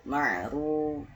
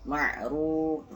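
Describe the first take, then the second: No difference in how they are said.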